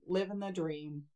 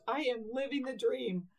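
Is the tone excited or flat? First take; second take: flat; excited. First: It sounds flat and unenthusiastic. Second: It sounds excited and enthusiastic.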